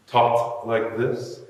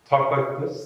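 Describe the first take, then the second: First: Slow emphatic refrain; slow, drawn-out refrain. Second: Said in the usual way. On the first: Shown as a demonstration. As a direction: stretch out "talked like this" slowly with a rise.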